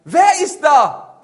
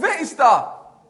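First: High, loud, slow call; drawn-out shout. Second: High, loud, drawn-out echo; echoed shout. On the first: Hunter to unseen voice, long loud shout. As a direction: bellow it into the forest, stretching the words. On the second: Forest voice comes back at hunter, echoed shout. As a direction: send the shout back, slightly softened. Die Stimme kommt zurück. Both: Acted.

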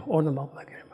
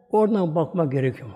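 First: Soft whispered repetition of "Oradan bakmak gerekiyor"; whispered echo. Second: Said in the usual way. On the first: Shown as a demonstration.

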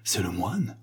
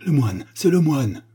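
First: Soft, fearful question; superstitious dread. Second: Raised, louder cry of recognition; exclamation. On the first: Guests stop laughing and ask, in hushed superstitious dread. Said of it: "dit-on avec une terreur superstitieuse". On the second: Prince Aristos to the laughing guests, exclaiming loudly. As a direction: call it out to everyone. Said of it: "Le prince Aristos s'écria". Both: A narrator's reading.

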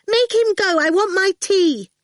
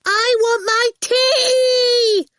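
First: Put-on high, loud child demand; a spoilt girl wanting her tea; insistent higher whine; demanding brat. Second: Very high, drawn-out shriek; ear-splitting childish scream; piercing yell. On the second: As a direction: yell so it cuts through walls. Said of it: "in the piercing way that had earned her name". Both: A narrator's reading.

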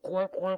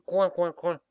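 First: High loud mocking quacks; duck quacking. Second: Loud high mocking quacking; sneering duck quacks. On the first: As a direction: cackle like silly ducks. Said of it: "les canards de cancaner". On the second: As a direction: quack like jeering ducks. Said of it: "ricanaient les canards".

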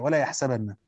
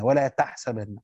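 First: يحسبن starting with a y sound; reading with ya. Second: تحسبن starting with a t sound; reading with ta. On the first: Teacher showing the others' reading, يحسبن with initial ya. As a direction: say يحسبن as "yaḥsabanna". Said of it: "وقرأ الآخرون بالياء". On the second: Teacher showing Hamza's reading, تحسبن with initial ta. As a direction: say تحسبن as "taḥsabanna". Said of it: "بالتاء فيهما". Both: Shown as a demonstration.

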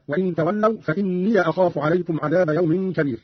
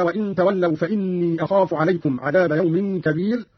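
First: فإني ending in "ya", "fa-inniya"; fatha on ya. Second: Said in the usual way. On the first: Shown as a demonstration. Teacher shows Qalun's reading, فإني as "fa-inniya". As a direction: open the end of فإني to "inniya" before أخاف. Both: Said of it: "قرأ قالون بفتح الياء".

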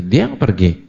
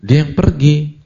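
First: Said in the usual way. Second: "Dia" punched higher and louder; stress on dia. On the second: Shown as a demonstration. Preacher insisting the worker left, stressing "Dia". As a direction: hit "Dia" hard, as if pointing at him.

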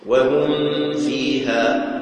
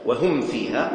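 First: "وهم فيها" with the meem of "وهم" hidden in a long nasal hum before the fa; إخفاء الميم. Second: "وهم فيها" with the meem of "وهم" sounded clearly and briefly before the fa; no lingering hum between "وهم" and "فيها"; إظهار الميم. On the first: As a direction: recite "وهم فيها" slowly, holding a ghunna on the meem. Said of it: "تخفي الميم عند الواو والفاء". ("وهم فيها" بإخفاء الميم مع غنة ممدودة) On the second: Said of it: "الإظهار". ("وهم فيها" بميم ظاهرة من غير غنة) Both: Shown as a demonstration.

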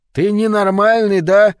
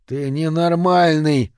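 First: High, very loud incredulous scream; outraged yell. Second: Drawn-out, higher-pitched outraged cry; outraged yell. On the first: Sweating barman challenges the albino, outraged scream. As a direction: scream it out, pitched right up. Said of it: "снова завопил Лучи". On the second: Barman to the man who smashed his jukebox, outraged yell. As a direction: cry out in slow, stretched disbelief. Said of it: "завопил он". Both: A narrator's reading.

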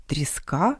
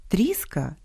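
First: Тріска with stress on the last syllable, tris-KA. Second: Тріска with stress on the first syllable, TRIS-ka. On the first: Host shows homograph for cod, last-syllable stress. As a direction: rise onto the final а of Тріска. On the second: Host shows homograph for wood splinter, first-syllable stress. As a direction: lean on the і of Тріска, then fall. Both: Shown as a demonstration. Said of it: "а читаються по-різному".

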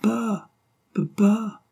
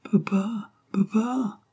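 First: High, voiced little child's call; high toddler voice, lightly voiced; baby voice. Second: Put-on high, breathless little whisper of a baby; hushed baby whisper, high; twittering child's whisper. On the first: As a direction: call papa like a delighted baby. Baby calling her father. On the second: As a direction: whisper papa like a tiny child calling from above. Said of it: "cette voix gazouillante". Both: A narrator's reading.

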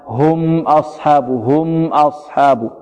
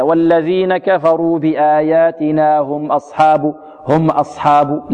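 First: Slow corrected هم, "m" given its middle length; ميم متوسطة. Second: Slow recitation, but no hold on the "m" of هم; ميم قصيرة شديدة. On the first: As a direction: hold the ميم of هم moderately, then أصحاب. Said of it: "لا". (ترتيل صحيح بتوسط ميم هم) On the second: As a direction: cut the ميم of هم short before أصحاب. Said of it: "البعض يقول هكذا". (ترتيل خاطئ بلا توسط في ميم هم) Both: Shown as a demonstration.

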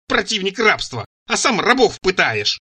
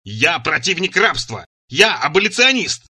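First: Raised, drawn-out accusing echo; scornful echo. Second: Slow, emphatic roar, rising and getting louder. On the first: Цира turns his claim against him, scornful. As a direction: quote the claim back pitched up, then accuse slowly. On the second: He loses patience and defends himself, roaring. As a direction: declare it slowly, building to a roar. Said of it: "не выдержал и заревел". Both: A narrator's reading.

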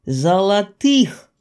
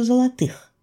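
First: Золотых drawn out slowly as an exclamation; amazed emphasis. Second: Золотых higher, ending the question; puzzled question. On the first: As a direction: stretch золотых syllable by syllable. Repeats the word in amazement. (изумлённо, медленно выделить «золотых») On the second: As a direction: ask it in wonder, landing on золотых. Puzzled narrator asks herself. (недоумённый вопрос на слове «золотых») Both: A narrator's reading.

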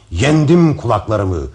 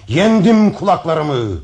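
First: Loud, slow victory cry; triumphant cry. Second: Much higher, loud, slow victory shout; rising triumphant shout. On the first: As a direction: proclaim your victory. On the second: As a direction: build it to a peak of triumph. Repeats louder, higher. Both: Acted.

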